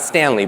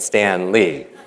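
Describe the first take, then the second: First: The name runs together as one word. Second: The name is split into two separate words. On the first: The speaker calls it wrong. "not Stanley" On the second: The speaker calls it right. "but Stan Lee"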